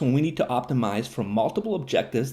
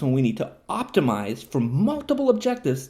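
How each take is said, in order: First: It is read at a normal, quicker pace. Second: It is read slowly with careful emphasis.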